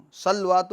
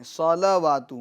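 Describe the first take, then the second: First: صلوات said as salwat, with no vowel after the lam; clipped صلوات that swallows the lam's fatha; wrong version. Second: صلوات as salawat, the lam's fatha sounded; vowel made clear. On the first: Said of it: "صلوات نہیں". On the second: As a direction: open the fatha on the lam in صلوات. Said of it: "اس کی حرکت کو ظاہر کرنا ہوگا". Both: Shown as a demonstration.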